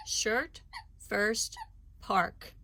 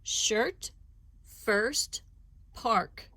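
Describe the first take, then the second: First: Said in the usual way. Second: Shirt, first, park each said clearly apart, a bit louder; three words set out one by one; careful listing. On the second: Shown as a demonstration. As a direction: list the three words slowly for listening. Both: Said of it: "listen carefully as I say three words".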